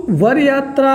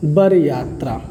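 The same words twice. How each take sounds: First: वर said with a clear v sound, var yatra; tatsam form. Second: वर said with a b sound, as bar yatra; tadbhav form. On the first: Teacher to students, वर yatra with a clear v. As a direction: say वर starting with व, like var. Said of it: "ये आपका तत्सम रूप है". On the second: Teacher showing the tadbhav form, वर said as bar. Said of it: "बा हो जाएगा". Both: Shown as a demonstration.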